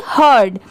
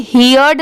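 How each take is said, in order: First: हर्ड with one short "ur" vowel, pitch lower; correct pronunciation. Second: हियर्ड with a gliding "hee-urd" vowel; wrong pronunciation. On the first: Teacher answering what the sound will be, correct pronunciation. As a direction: say हर्ड like "herd", one syllable. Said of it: "इसकी sound क्या आएगी?". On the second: Teacher showing how not to read it, wrong pronunciation. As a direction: say हियर्ड as "hear" plus d. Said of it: "यहाँ पर इसे हियर्ड नहीं पढ़ेंगे". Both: Shown as a demonstration.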